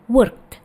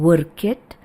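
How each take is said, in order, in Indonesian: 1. Kata itu berakhir dengan bunyi 't' yang pendek. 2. Kata itu berakhir dengan suku kata tambahan 'id'. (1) "seperti T di belakangnya" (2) "bukan id"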